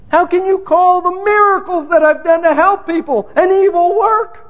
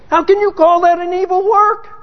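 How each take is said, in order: First: Escalating outrage. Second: Indignant question. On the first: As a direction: climb into outraged disbelief. Same question repeated, escalating. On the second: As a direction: challenge God, affronted, ending on work. Repeated indignant question, escalating. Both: Retold or imitated.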